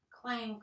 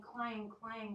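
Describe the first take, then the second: First: Said in the usual way. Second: Slow, ringing pot clangs; drawn-out echoing clang, clang. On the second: Acted. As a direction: let each clang ring. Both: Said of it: "went the cooking pot".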